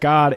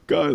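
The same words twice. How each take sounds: First: It is said in a calm, even voice. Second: It is said in a crying, sobbing voice. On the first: "I'm not saying it like that" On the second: "I'm bawling my eyes out"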